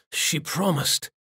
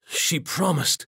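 First: Lightly voiced dying man, faint and bitter; dying demon's lament. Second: Higher, slowed and drawn out, fading; slower dying lament. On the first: Dying Benares to himself, a hint of faint bitter lament. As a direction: let the words fall like a last breath. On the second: Acted. Benares clutching dead Jin's hand, slow fading grief. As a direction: stretch each word as the life leaves him.

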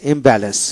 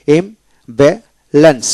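First: Said in the usual way. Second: ইমব্যালেন্স in three slow, separated syllables. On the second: Shown as a demonstration. Teacher drills three syllables, saying ইমব্যালেন্স slowly in parts. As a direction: pause after each syllable of ইমব্যালেন্স. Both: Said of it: "তিনটে syllable".

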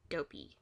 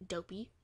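First: Dopey dropped low and falling; puzzled dopey. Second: Said in the usual way. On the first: A narrator's reading. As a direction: repeat dopey back in low disbelief. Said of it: "What do you mean". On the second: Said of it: "What do you mean, dopey?".

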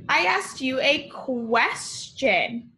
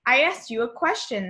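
First: Slow emphatic. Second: Brisk and quicker on the repeat; fast restatement, stress on asked. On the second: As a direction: rattle it off quickly a second time. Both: Shown as a demonstration.

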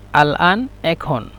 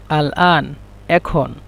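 No difference in how they are said.

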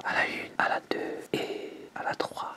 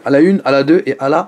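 First: Slow, hushed whisper; little voice. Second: Said in the usual way. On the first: Shown as a demonstration. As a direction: count it off in a tiny whisper. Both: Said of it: "on va le faire avec la petite voix".

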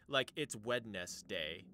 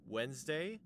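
First: Wednesday said slowly as WED-NES-DAY with every letter sounded; spelled-out Wednesday. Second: Said in the usual way. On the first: Shown as a demonstration. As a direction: sound out the d in Wednesday, slow and deliberate. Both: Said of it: "D, E, S are silent".

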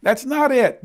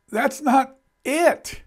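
First: "not" hit firmly with a fall; stress on not, falling. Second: "not" stretched slowly with a rise; stress on not. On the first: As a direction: close it down on "not". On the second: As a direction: draw out "not" in disbelief. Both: Retold or imitated. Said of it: "I'm thinking".

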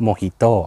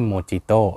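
First: Mojito said mo-HEE-to with an h sound; correct Spanish reading. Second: Mojito said mo-JEE-to with a hard j sound; wrong Thai reading. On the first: Host teaching the right way: Mojito with an h. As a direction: give Mojito with an h in place of the j. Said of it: "การออกเสียงก็คือ". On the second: Host showing the mistake: Mojito with a j. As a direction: read Mojito with a j, the way it should not be said. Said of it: "ไม่ใช่". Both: Shown as a demonstration.

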